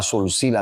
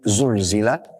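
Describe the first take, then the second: First: The word begins with an s sound. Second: The word begins with a z sound. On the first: The earth is joined together. The speaker calls it wrong. "dia membaca semuanya dengan sin" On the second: The earth shakes. The speaker calls it right. "mana zai"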